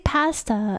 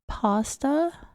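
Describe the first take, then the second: First: The word has a British English pronunciation. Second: The word has an American English pronunciation. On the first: "now, like, I say pasta" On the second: "in American English, we would say pasta"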